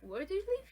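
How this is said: It sounds like a repeat asking for clarification.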